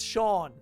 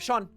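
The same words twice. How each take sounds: First: The vowel is lengthened into a drawn-out aw. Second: The vowel is short, without the drawn-out aw. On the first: The speaker calls it right. "It just kind of elongates the word" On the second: The speaker calls it wrong. "Instead of Sean"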